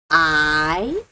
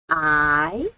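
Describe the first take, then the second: First: It is said with the second tone. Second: The same.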